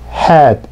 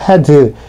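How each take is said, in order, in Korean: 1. 한 음절이고, 끝의 d는 약하게 납니다. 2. 두 음절이고, 끝의 d는 분명하게 납니다. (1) "D 발음이 들리랑말랑하게" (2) "이렇게 이음절로 발음하지 마시고"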